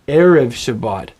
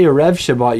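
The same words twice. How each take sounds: First: The stress is on the first syllable of erev. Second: The stress is on the last syllable of erev. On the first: The speaker calls it right. "you say Erev Shabbat. Can you hear how the accent is on the first syllable?" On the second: The speaker calls it wrong. "You don't say"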